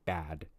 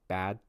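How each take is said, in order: First: It is said slowly and very carefully. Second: It is said at normal speed, final sound held. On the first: "if you slow it down and say it as clearly as possible" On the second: "How do I say it normally? I hold the final sound"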